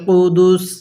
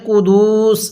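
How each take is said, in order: First: The vowel in the word is kept short. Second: The vowel in the word is drawn out long. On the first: The speaker calls it right. "বিরুহিল কুদুস এরকম ভাবে শিখব" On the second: The speaker calls it wrong. "এখানে কুদুস এরকম ভাবে টান দিব না"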